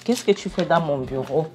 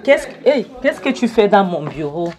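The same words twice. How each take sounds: First: Said in the usual way. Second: Loud, higher-pitched imitated boss's shout; mock angry shout. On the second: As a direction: yell at the intruder as if you caught him in your office. Patron trouve intrus à son bureau. (cri de patron en colère, imité)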